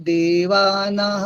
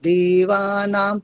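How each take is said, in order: No difference in how they are said.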